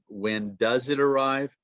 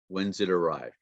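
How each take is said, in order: First: The word 'does' is said in full. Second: The word 'does' shrinks to an s sound.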